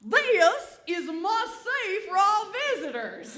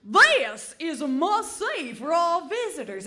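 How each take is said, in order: First: Higher and louder, laughing robotic guide voice; mock GPS announcement. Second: GPS voice. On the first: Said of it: "And then Steve again would say". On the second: Retold or imitated. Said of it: "Steve would say".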